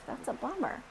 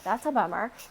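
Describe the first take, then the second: First: It is said warmly, with sympathetic concern. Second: It is said flatly, without any warmth. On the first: The listener truly feels for the other person. The speaker calls it right. "an emotional response of" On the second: The words do not match the feeling behind them. The speaker calls it wrong. "And not"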